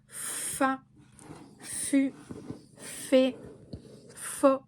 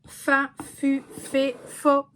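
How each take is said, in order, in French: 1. Les syllabes sont prononcées lentement et allongées. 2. Les syllabes sont prononcées rapidement et naturellement.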